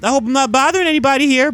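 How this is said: The voice sounds natural, light and friendly. "the regular old friendly Spider-Man voice"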